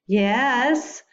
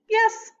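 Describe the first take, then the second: First: The voice rises at the end. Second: The voice falls at the end.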